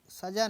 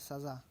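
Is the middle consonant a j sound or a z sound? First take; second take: j sound; z sound. First: The middle consonant is a j sound. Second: The middle consonant is a z sound. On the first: The speaker calls it wrong. "सजा सजा नहीं होता है" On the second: The speaker calls it right. "सज़ा होता है"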